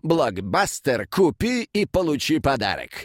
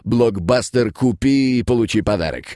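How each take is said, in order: First: It is read with lively, varied expression. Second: It is read in an even, unemotional monotone. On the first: "Это Михалёв" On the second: "очень ровно начитывал"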